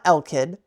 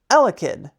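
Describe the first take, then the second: First: The word has two syllables, dropping the middle one. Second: The word has three syllables, keeping the middle one. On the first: The speaker calls it wrong. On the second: The speaker calls it right.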